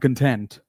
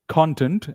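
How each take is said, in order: First: The stress is on the second syllable. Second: The stress is on the first syllable. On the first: It is the other sense of the word. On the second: It is the noun meaning what something contains.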